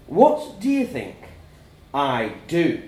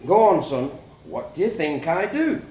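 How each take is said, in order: First: Slow, louder pointed question; stern dad. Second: Firm, prodding fatherly question; pressing dad. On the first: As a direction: quiz the boy slowly and pointedly. Dad quizzes son sternly. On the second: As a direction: press the boy for an answer. Dad presses son for answer. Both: A narrator's reading.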